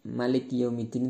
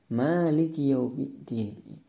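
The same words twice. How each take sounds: First: The first vowel of Maliki is kept short. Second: The first vowel of Maliki is drawn out long. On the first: The king of the Day of Judgment. "Kalau pendek" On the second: The one who owns and rules the Day of Judgment. "atau dibaca panjang"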